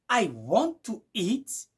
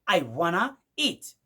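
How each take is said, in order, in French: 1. Want to se prononce comme deux mots pleins. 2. Want to se fond en un seul mot, wanna. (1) "dans l'anglais simple" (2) "vous allez écouter du genre"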